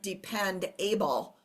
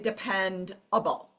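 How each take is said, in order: First: The suffix is said like the full word able. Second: The suffix starts with a weak schwa vowel. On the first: The speaker calls it wrong. "we don't say the word depend able" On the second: The speaker calls it right. "We say depend able. Okay, so schwa right there"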